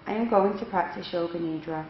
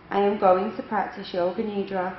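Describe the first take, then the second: No difference in how they are said.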